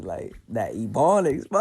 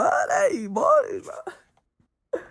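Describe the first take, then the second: First: Said in the usual way. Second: A sudden high, loud squeal, slow and stretched. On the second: Shown as a demonstration. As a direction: squeal the word out like a cry of joy. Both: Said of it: "I love talking like this".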